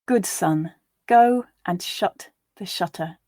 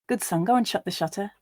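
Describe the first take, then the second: First: The line is read slowly. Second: The line is read at natural speed. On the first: "once slowly for you to grasp the words" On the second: "and then once at a more natural pace"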